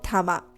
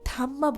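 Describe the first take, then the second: First: The m sound is single and short. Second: The m sound is doubled and held long. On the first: The speaker calls it right. "Right pronunciation হলো থামা" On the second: The speaker calls it wrong. "অনেকেই এই মুভিটার নামকে থাম্মা বলবেন"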